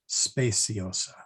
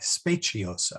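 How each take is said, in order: First: The c is pronounced as an s sound. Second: The c is pronounced as a ch sound. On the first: The speaker calls it wrong. "I did it again, didn't I?" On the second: The speaker calls it right. "with a soft C, the or the ch sound, not the s sound"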